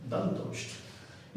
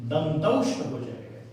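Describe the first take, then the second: First: दंतोष्ठ whispered very softly and very slow; whispered model word. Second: Said in the usual way. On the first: Shown as a demonstration. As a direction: breathe out दंतोष्ठ without voice so the lips and teeth show.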